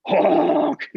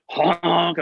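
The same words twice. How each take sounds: First: Higher honk like a bad saxophone note; imitated sax honk. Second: Just say the honk lightly; lighter honk. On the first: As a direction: mimic a beginner's squawk. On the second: Retold or imitated. Student recalling the squawk, barely imitated honk. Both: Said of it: "I sound like a beginner".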